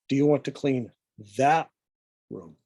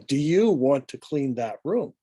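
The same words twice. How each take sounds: First: The word room carries the stress. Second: The word you carries the stress. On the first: It asks whether this room or another one. "now the emphasis is on the room" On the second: It asks whether you or someone else will clean. "As we emphasize the word you"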